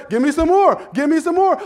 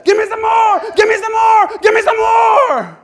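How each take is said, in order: First: Loud, high give me some more; eager demand. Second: Full shout, high and loud, slowing at the end; shouted demand. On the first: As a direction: ask for more with relish. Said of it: "I'll say". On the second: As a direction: shout it to the rafters. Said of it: "you're gonna say". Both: Acted.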